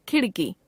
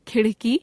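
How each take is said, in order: First: खिड़की with plain flap ड़, falling; खिड़की as khiṛki, closing fall; unaspirated ड़. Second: खिड़की said as खिढ़की, rising; खिड़की with aspirated flap, end lifted. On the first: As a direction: keep breath off ड़ in खिड़की. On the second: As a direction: add breath to ड़ in खिड़की. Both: Shown as a demonstration. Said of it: "ड़ और ढ़ की अशुद्धियां".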